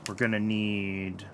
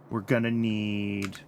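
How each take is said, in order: Both takes have the same delivery.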